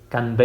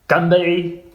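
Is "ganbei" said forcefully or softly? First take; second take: softly; forcefully. First: It is said softly, without a strong, clipped start. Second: It is said forcefully, with a strong, clipped start. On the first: "nicht Ganbei" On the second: "als ein richtiger Nordchinese sagt man Ganbei, Gan ... sehr männlich"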